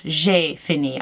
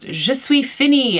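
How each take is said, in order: First: "j'ai fini" said plainly in French, the correct form. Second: "je suis fini" declared slowly and loudly, the wrong form; wrong French with gusto. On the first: Shown as a demonstration. Explaining the right French phrase to viewers, plain French. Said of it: "in French, it's". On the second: Retold or imitated. Retelling her dinner-table grammar blunder, mock proud declaration. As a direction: proudly announce "je suis fini" as a learner would. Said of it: "I did it with a lot of gusto".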